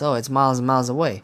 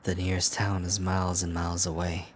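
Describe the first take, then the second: First: Fast, loud, higher mock imitation; mocking quote. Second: Even, understated storyteller delivery; narrating voice. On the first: Player mimicking the character's late reveal, mocking. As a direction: parrot it back in exasperated mockery. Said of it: "this motherfucker says". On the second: Acted. Player reading how far the town is, narrating voice. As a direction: read it out as detached narration. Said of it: "that was my narr-, narrating voice".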